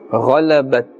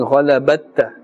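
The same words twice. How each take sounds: First: The final t is released lightly. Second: The final t is released with a strong echo. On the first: The speaker calls it right. "slightly we must pronounce the sound" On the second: The speaker calls it wrong. "We are not pronouncing it with too much of stress"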